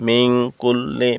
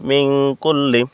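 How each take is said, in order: The two takes are said the same way.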